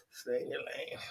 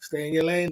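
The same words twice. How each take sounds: First: Whispered, much softer and lower. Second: Said in the usual way. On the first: Shown as a demonstration. Whispering the warning to the viewer. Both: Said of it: "whispered repeat".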